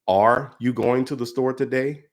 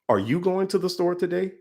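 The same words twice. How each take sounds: First: The word 'are' carries the strongest stress. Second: The word 'you' carries the strongest stress. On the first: "put an emphasis on every word in that sentence, going down the line of each word" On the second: "going down the line of each word"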